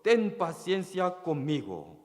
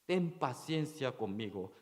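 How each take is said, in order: First: A mildly raised, earnest plea on "ten paciencia conmigo"; mild retold plea for patience; pleading. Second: "Ten paciencia conmigo" said more softly, pleading; quiet retold plea for mercy; softer plea. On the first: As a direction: beg the master lightly, a bit higher. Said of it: "le suplicaba, diciendo". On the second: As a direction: hush the plea, almost begging under the breath. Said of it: "está pidiendo su misericordia".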